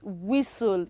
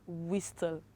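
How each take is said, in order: First: The t after the s is not pronounced. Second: The t after the s is clearly pronounced. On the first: The speaker calls it right. "And of course that is whistle" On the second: The speaker calls it wrong. "not whistle"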